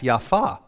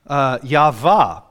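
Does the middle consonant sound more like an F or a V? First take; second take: F; V. First: Said quickly, the middle consonant sounds like F. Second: The middle consonant is a clear V sound. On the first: "when he said it quickly sounded like an F" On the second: "with a V"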